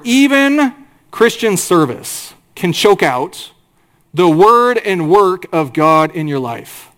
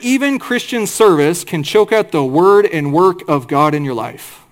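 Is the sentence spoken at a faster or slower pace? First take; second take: slower; faster. First: The sentence is spoken at a slower pace. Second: The sentence is spoken at a normal, quicker pace.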